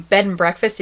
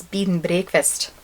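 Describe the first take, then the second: First: Said in the usual way. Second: Bed and breakfast with Scottish vowels, like "beed n brehkfist"; badly faked Scottish, bed said as bead; Scottish accent. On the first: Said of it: "even worse, it's Scottish". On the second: Shown as a demonstration. Showing a phrase learned in Scotland, Scottish-accented bed and breakfast. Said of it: "I learned these two things".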